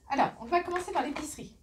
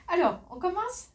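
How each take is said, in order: First: Fast, still high restart; brisk second go at the intro; quick restart. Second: Bright rising opener, high and loud; cheerful call to start, rising at the end; upbeat launch. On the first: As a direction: rattle off the start again, quickly. Restarts the opening, faster. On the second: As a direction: kick the haul off with a lift. Energetic opening of the haul. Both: Real, not acted.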